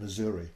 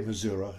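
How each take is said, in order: First: It is pronounced the way outsiders say it. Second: It is pronounced the way locals say it. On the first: The speaker is not from the area. "instead of saying Missouri" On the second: The speaker has become a local. "you must be a Missouri now because you say Missouri"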